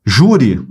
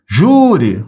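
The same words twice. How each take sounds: First: Said in the usual way. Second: "Júri" with a long, stretched jú; prolonged first syllable. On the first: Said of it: "separei as sílabas". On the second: Shown as a demonstration. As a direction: draw out the first syllable of "Júri", then drop. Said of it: "se prolongou".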